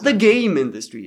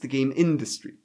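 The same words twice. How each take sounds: First: The word game carries the stress. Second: The word industry carries the stress. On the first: The focus is on making games. The speaker calls it wrong. "It's not the game industry" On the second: The focus is on business and making money. The speaker calls it right. "It's the game industry"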